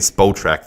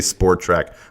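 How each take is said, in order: First: The first syllable has no r sound. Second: The first syllable has an added r sound. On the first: The speaker calls it right. "I hate saying Spotrac" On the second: The speaker calls it wrong. "I always say Sportrac. I say it wrong"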